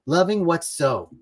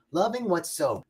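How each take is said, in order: First: Said in the usual way. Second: "Loving what's so" said again, softer and inward; softer repeat. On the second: Shown as a demonstration. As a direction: let the second "Loving what's so" sink into a softer voice.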